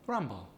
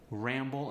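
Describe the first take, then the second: First: The first vowel sounds like 'cut'. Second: The first vowel sounds like 'cat'.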